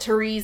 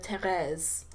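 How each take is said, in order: First: The name is said with an English pronunciation. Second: The name is said with a French pronunciation. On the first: The speaker calls it wrong. "Anglo accents that would call it Therese" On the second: The speaker calls it right. "instead of Therese"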